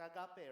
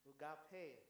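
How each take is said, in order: First: It is pronounced the Filipino way. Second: It is pronounced uh-gah-pay. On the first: "if we pronounce this one in our Filipino way" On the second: "I found a pronunciation is ugape. U H, then dash G A H, dash P A Y"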